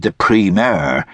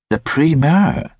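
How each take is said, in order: First: Said in the usual way. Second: Higher-pitched, querying echo; lightly voiced querying lady. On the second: A narrator's reading. Lady querying Hackett's fancy word, in a higher voice.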